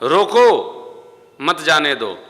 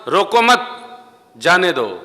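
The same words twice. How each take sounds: First: The pause comes right after 'roko'. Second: The pause comes right after 'mat'. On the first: Stop him, do not let him go. "आपने telephone पर कहा" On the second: Do not stop him, let him go. "सुनने वाले ने सुना रोको मत जाने दो, तो वो जाने देगा"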